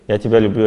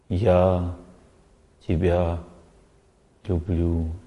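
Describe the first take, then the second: First: It is said automatically and mechanically. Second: It is said deeply, from the heart.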